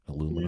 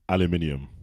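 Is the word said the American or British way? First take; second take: American; British. First: It is said the American way. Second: It is said the British way.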